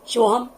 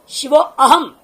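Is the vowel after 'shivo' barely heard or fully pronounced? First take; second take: barely heard; fully pronounced. First: The 'a' vowel is swallowed and barely heard. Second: The 'a' vowel is fully and separately pronounced. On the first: The speaker calls it right. "वह अ खा गया बाधा और आधा बोल भी रहे हैं" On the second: The speaker calls it wrong. "नहीं"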